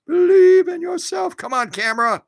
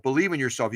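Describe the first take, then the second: First: Believe in yourself, said much higher and louder in a put-on voice; a sing-song pep talk to the camera; Believe said high and bright as mock encouragement; cheer-up voice. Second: Said in the usual way.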